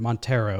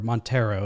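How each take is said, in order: First: The name is said in an anglicized American way. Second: The same.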